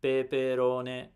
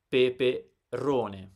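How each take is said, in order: First: Peperone slow, every syllable equal; robotic even stress. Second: Peperone with a long, strong RO, falling after; stress on penultimate syllable. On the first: Teacher showing how we don't read, robotic monotone. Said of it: "so we don't read as robots". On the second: Teacher showing how we read with stress, penultimate stress. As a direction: lean hard and slowly on "ro" in peperone. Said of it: "We read with stress". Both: Shown as a demonstration.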